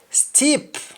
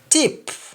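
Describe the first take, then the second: First: The word begins with an s sound. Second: The word begins with a t sound. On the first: "words that start with S T" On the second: "In Jamaican, the S T in most cases changes to T"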